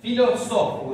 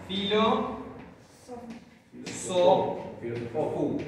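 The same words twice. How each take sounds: First: Filosofu with stress on the last syllable fu, a bit louder; accent moved to the end. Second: Filo, so, fu broken into separate syllables. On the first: Teacher shows the shifted accent to the class. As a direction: lean on the final fu. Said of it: "desplazo el acento". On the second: Teacher breaks the word into syllables for students. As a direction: spell the word out in beats. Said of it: "el último lo pronunciamos u". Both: Shown as a demonstration.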